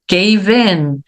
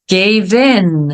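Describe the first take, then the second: No difference in how they are said.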